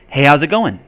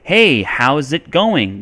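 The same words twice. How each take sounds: First: The words are linked and blended together. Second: Each word is pronounced clearly and separately.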